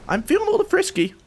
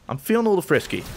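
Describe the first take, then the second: First: Much higher, fast and playful. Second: Said in the usual way. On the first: Shown as a demonstration. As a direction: squeak it out teasingly, fast.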